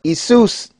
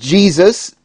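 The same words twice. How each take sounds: First: The word begins with a Y sound. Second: The word begins with a J sound. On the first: The speaker calls it right. "but Jesus" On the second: The speaker calls it wrong. "Not Jesus"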